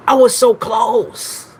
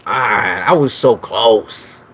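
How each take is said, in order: First: Higher, slow whining lament; mock-anguished whine; whiny wail. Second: Slow drawn-out complaint; dragged-out lament; slow groan. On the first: Whining after missed guess. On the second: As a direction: stretch it in frustration. Missed the guess. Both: Real, not acted.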